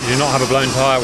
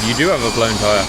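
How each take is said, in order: First: You do NOT have, with not leaned on and held; flat denial, not pushed; stress on not. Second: You do HAVE, with have leaned on and held; grudging correction, have stressed. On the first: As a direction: insist on the word not. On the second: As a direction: concede by hitting the word have. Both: Real, not acted. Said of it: "I stand corrected".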